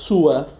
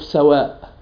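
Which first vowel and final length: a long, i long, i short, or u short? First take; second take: u short; a long. First: The first vowel is u; the final vowel is short. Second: The first vowel is a; the final vowel is long. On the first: "ضم السين مع قصر الألف" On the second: "فتح السين مع مد الألف"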